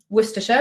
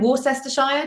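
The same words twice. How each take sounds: First: It is said short, with syllables dropped. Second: It is said with every syllable sounded out. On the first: The speaker calls it right. "which is the real one" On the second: The speaker calls it wrong. "just in case"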